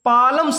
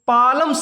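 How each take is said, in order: First: The L sound is pronounced before the M. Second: The L sound is pronounced before the M.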